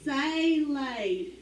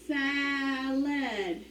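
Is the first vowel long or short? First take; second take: long; short. First: The first vowel is a long A sound. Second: The first vowel is a short A sound. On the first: The speaker calls it wrong. "Do we need this A to say its name?" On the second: The speaker calls it right. "if we need it to be a short vowel"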